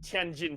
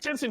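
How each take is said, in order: First: It is said like 'tyen-jin', with a 'j' sound. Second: It is said like 'tin-sin', without a 'j' sound. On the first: This is how it is said in the mainland now. "in the mainland. It's actually pre- pronounced Tianjin" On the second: This is an older way of saying it. "that's actually an old way to pronounce the word"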